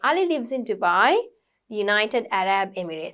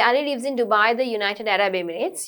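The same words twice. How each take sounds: First: There is a brief pause after Dubai. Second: It runs on with no pause after Dubai. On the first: The speaker calls it right. "You say ... So you need a brief pause" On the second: The speaker calls it wrong. "you don't say"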